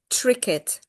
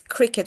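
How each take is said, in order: First: The word begins with a T-like sound. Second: The word begins with a clear K sound. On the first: The speaker calls it wrong. "I keep hearing tricket" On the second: The speaker calls it right. "cricket with K, like at the beginning"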